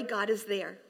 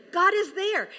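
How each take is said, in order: First: Said in the usual way. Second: GOD raised high and louder; emphatic. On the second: Real, not acted. Pastor assuring the congregation, stressing God.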